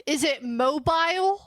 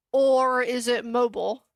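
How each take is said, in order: First: "mobile" as MO-bile, rhyming with file, rising; MO-bile pronunciation. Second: "mobile" as MO-bull, rhyming with noble; MO-bull pronunciation. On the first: Streamer polls chat on two sayings, "mobile" as MO-bile. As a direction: say "mobile" slowly with a long I, questioning. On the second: Streamer offers chat the other option, "mobile" as MO-bull. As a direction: say "mobile" with a reduced second syllable, MO-bull. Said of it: "So is it mobile". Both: Shown as a demonstration.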